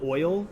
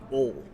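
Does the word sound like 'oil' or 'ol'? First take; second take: oil; ol. First: The vowel glides from 'o' to 'ee'. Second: The vowel stays a plain 'o' without glide. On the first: This is the usual way to say it. "instead of oil" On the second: This is how people in that region say it. "They just take the I out of oil altogether"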